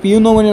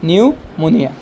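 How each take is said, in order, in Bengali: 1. শব্দটি পি ধ্বনি দিয়ে শুরু হয়। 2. শব্দটি এন ধ্বনি দিয়ে শুরু হয়। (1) "পিউনোমনিয়া নহয়" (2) "সঠিক উচ্চাৰণ হ'ল নিউমোনিয়া"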